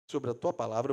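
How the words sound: It is said grudgingly, with a mocking edge. The speaker doubts it will work but goes anyway. The speaker calls it right. "quase debochando de Jesus ali"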